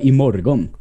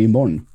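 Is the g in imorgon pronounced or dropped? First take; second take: pronounced; dropped. First: The g sound in the word is pronounced. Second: The g sound in the word is dropped. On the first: It follows the written language. "du uttalar G-et i imorgon" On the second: It follows everyday spoken language. "Alla andra säger ju imorgon"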